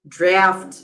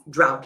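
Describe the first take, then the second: First: The word ends with an f sound. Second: The word ends with a t sound. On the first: The speaker calls it wrong. "I've seen a lot of people saying uh, drought, draft, but no" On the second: The speaker calls it right. "this is drought"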